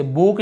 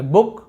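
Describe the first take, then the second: First: "बुक" said with a long drawn ऊ; wrong long oo. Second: "बुक" with a short clipped ऊ as in book. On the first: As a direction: stretch the vowel in "बुक" like boon. ("बुक" में लंबा ऊ) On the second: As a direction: keep the vowel of "बुक" short. ("बुक" में छोटा ऊ) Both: Shown as a demonstration. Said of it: "इसे बुक नहीं पढ़ रहे".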